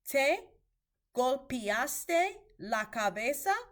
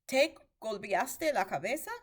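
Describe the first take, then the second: First: The sentence is spoken slowly and carefully. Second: The sentence is spoken at normal conversational speed. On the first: "I'm going to say that a little bit slower" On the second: "just at regular speed"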